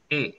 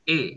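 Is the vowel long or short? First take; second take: short; short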